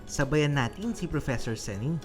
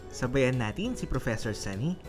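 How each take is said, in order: Both takes have the same delivery.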